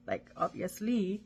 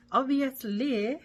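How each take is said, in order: First: Said in the usual way. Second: Obviously stretched slow, pitched higher and louder with a rise; drawn-out obviously. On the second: Shown as a demonstration. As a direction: sing out obviously slowly like reading it off the page. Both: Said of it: "That's how you say that".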